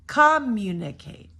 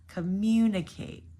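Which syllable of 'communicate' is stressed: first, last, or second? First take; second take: first; second. First: The stress is on the first syllable. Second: The stress is on the second syllable. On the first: The speaker calls it wrong. "if you were to say it wrong, ... I'm going to do it with the first syllable" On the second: The speaker calls it right. "Our stress here is the second syllable"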